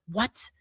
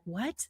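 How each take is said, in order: First: Sharper, scolding "What?" with a short rise; a frowning, accusing "What?". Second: Soft, puzzled "What?" rising gently; a quiet, wondering "What?" with an upward lift; surprised what. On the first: How a stressed brain hears the same look, a scolding "What?". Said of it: "you'll see a frown ... with, like, a scolding look". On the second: Showing a friend's surprised face, a soft surprised "What?". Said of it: "looks at you surprised". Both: Shown as a demonstration.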